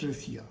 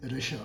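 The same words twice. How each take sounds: First: 'Russia' as ruh-see-ya, with an s; incorrect pronunciation. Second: 'Russia' as ruh-sha, with sh; correct pronunciation. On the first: Teacher rejects it for learners, s instead of sh. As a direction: say 'Russia' wrongly in three syllables. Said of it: "not Russia". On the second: Teacher models for learners, sh pronunciation. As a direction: say 'Russia' in two syllables with sh. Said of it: "The correct pronunciation of this word is Russia". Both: Shown as a demonstration.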